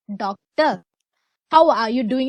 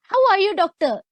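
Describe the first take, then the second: First: Lower, measured and respectful, the proper way to greet a lecturer; formal polite tone. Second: Higher, breezy and offhand, too casual for a lecturer; casual wrong way. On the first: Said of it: "use a formal tone to them". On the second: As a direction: toss it off like chatting to a friend. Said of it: "You can't say". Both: Shown as a demonstration.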